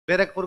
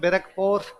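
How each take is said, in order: First: The ending is said the plain Hindi way. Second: The ending is said the English way. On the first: The local name of the town. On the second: The way the English said the name.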